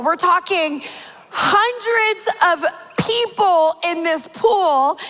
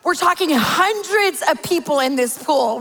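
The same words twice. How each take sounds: First: HUNDREDS drawn out and pitched high; slow, incredulous stress on "hundreds"; emphatic repeat. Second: Said in the usual way. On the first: Real, not acted. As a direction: hammer hundreds of people slowly, word by word.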